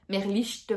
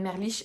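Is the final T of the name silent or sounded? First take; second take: sounded; silent. First: The final t sound is clearly pronounced. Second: The final t sound is left silent. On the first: The speaker calls it right. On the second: The speaker calls it wrong.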